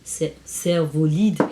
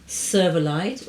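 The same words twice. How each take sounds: First: The name is pronounced with French sounds. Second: The name is pronounced with English sounds.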